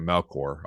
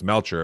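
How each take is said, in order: First: The middle consonant is a 'k' sound. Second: The middle consonant is a 'ch' sound. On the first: The speaker calls it wrong. "we always get Melkor all the time" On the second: The speaker calls it right. "it's pronounced Melcher"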